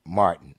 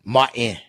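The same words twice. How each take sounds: First: Said in the usual way. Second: Martin with the t dropped; low, offhand Martin with no t; nowadays pronunciation. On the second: Shown as a demonstration. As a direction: say Martin as "Mah-in", swallowing the t. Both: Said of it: "That's how they say it nowadays".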